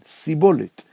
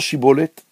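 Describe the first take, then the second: First: The word begins with an s sound. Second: The word begins with an sh sound. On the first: The speaker is from Ephraim. The speaker calls it wrong. "הם לא יכולים לבטא שין ימנית, הם מבטאים סין" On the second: The speaker is not from Ephraim. The speaker calls it right. "אמור נא שיבולת"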